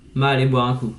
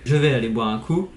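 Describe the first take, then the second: First: The words 'je vais' shrink to 'ma'. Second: The words 'je vais' are said in full.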